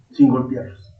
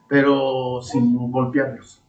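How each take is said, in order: First: Said in the usual way. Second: "Pero sin golpearlos" said slowly, leaning on each word; slow emphatic. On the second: Shown as a demonstration. ("Pero sin golpearlos", lento y enfático)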